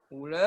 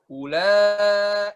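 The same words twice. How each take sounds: First: "Ula" with a wavering final vowel; wrong, vibrating tone. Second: "Ula" with a long, steady final vowel; clean steady tone. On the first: Teacher showing the mistake, vibrato on "Ula". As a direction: let the long "la" of "Ula" tremble. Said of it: "ada getarannya". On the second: Teacher demonstrating a clean voice, steady held "Ula". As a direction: hold the "la" of "Ula" smooth and unwavering. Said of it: "itu kan bersih ya". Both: Shown as a demonstration.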